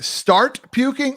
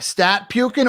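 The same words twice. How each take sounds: First: Said in the usual way. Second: "stat" with no r, for start; Boston pronunciation. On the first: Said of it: "Was he saying". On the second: Shown as a demonstration. Host asking what coach said, "stat" without its r. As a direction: drop the r in "stat puking". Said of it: "the Boston accent".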